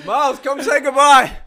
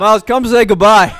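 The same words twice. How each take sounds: First: Laughing through the call. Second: Louder call across the room; loud summons for the guest. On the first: Repeat dissolving into laughter. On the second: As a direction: call him back over. Calling guest who ran away. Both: Real, not acted.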